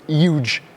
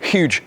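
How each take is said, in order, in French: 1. Le mot se dit sans le son H au début. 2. Le mot se dit avec un son H bien net au début. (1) "il dit huge" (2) "There's a fucking H. Pronounce it"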